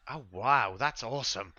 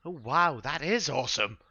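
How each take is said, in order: First: Lightly voiced wowed little boy; a hint of childlike wonder; amazed boy. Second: Put-on high, loud echo of a wowed child; excited little companion voice, swooping higher. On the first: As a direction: marvel like an impressed kid. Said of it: "the boy's like". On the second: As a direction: chime in with a small, pitched-up voice. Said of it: "another little voice from Dax's shoulders".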